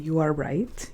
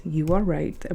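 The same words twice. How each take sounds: First: "are" stressed, rising at the end; conceding emphasis. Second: "are" stressed, falling at the end; firm agreement. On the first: Conceding to viewers, "are" stressed with a rise. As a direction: lean on "are", then lift the tune. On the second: Conceding to viewers, "are" stressed with a fall. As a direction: lean on "are" and let the tune drop. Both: Shown as a demonstration.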